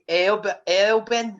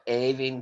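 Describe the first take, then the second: First: The name is said with an L sound. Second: The name is said with no L sound. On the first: An outsider is getting the name wrong. The speaker calls it wrong. "you know exactly the person because they come out and go" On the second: This is how the family says the name. The speaker calls it right. "No, it's Aving"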